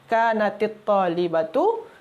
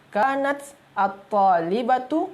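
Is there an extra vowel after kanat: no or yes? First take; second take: yes; no. First: Kanat takes an added i before the article. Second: Kanat ends in t with no added vowel. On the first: "sekarang cara dia jadi dia kanatit talibatu" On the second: "Asalnya kanat"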